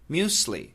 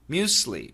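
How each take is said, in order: First: The middle consonant is an S sound. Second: The same.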